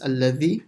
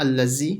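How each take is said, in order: First: The middle consonant is a soft th sound. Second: The middle consonant is a z sound. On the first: The speaker calls it right. "it's dhal" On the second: The speaker calls it wrong. "it's not allazi, ... So it's not a z"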